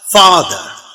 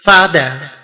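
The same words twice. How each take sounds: First: It is said in a British accent, without 'r'. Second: It is said in an American accent, with 'r'. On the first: "the British way of saying" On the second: "American fricative, the sound er comes"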